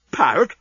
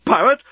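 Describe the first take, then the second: First: Mild puzzled echo; slightly higher stunned echo of the word; stunned question. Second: Much higher, louder shocked repeat; louder incredulous outburst. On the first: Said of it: "he said". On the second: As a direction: blurt it out in disbelief. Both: Acted.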